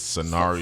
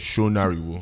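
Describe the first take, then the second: First: The name is said with an American accent. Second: The name is said with a Yoruba accent.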